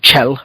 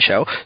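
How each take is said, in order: First: The name begins with a sharp 'ch' sound. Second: The name begins with a soft 'sh' sound. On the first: The speaker calls it right. "or Chell" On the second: The speaker calls it wrong. "I've been told that I'm saying it wrong"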